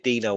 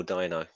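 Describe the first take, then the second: First: "Dino" with first syllable like "dee"; DEE-no pronunciation. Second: "Dino" with first syllable like "dye"; DYE-no pronunciation. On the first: Co-host asking how a viewer's name is said, "Dino" as DEE-no. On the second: Co-host offering the other reading of a viewer's name, "Dino" as DYE-no. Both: Shown as a demonstration. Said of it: "Is it Dino or Dino?".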